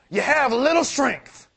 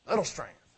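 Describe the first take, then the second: First: "little" stretched out slowly, higher and louder; stress on little. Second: Said in the usual way. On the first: Shown as a demonstration. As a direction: lean hard on "little" in slow, raised delivery.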